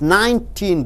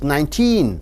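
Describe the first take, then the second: First: The syllable teen is only lightly stressed. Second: The syllable teen is strongly stressed. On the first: Another word follows the number. "you are not stressing on teen" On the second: The number ends the sentence. "You are stressing on teen because no other word is following teen"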